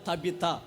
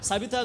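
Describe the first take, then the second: First: The name begins with a T sound. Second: The name begins with an S sound. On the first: The speaker calls it right. "తబిత పలకండి" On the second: The speaker calls it wrong. "సబిత కాదు"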